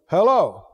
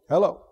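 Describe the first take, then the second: First: It sounds suspicious, like questioning someone's presence. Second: It is said flat, with little feeling.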